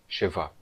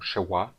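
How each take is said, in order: First: The middle consonant is a v sound. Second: The middle consonant is a w sound. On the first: This is the modern Hebrew pronunciation. "em vez de Vav ou Sheva" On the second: This is the ancient Aramaic pronunciation. "a letra era pronunciada como Shewa ou Waw"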